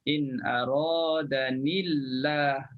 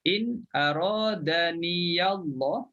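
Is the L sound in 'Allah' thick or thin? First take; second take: thin; thick. First: The ya is silent and the L is thin. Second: The ya is voiced and the L is thick. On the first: "kalau kita baca hamzah yang mana ya dibaca mati, maka lam kita tipiskan" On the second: "Kalau baca haf, niyallah lam tu kita tebalkan. Sebab sebelumnya baris atas"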